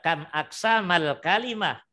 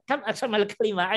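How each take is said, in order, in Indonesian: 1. Pertanyaan itu diucapkan sangat lambat. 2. Pertanyaan itu diucapkan cepat. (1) "Kan saya pelan-pelan sekali"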